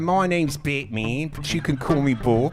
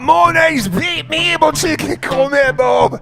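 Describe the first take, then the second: First: It is spoken in a New Zealand accent. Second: It is spoken in a Scottish accent. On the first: "So I'm gonna do it in a New Zealand accent" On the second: "I'm going Scottish"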